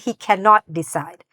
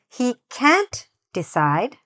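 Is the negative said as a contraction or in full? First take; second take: full; contraction. First: The negative is said in full as cannot. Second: The negative is contracted into one syllable. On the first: The speaker calls it wrong. "it doesn't sound very natural to say that" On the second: The speaker calls it right. "So you want to say"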